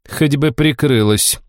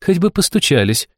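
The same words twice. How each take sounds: First: Slow, reproachful tone; tut-tutting disapproval; disapproving. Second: Higher, snappy comeback; cheeky retort. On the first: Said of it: "с осуждением произнесла". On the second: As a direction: throw it right back. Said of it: "вернула ей Алиса". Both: Acted.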